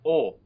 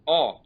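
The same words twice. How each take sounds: First: "O" with the closed acute-accent vowel; tight, rounded "O" vowel. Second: "O" with the open grave-accent vowel, like "aw"; open-mouthed "O" vowel. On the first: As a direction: say "O" rounder and more closed, without a glide. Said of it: "the acute accent is closed". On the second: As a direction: say "O" wide open, without a glide. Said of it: "This is the grave accent O". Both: Shown as a demonstration.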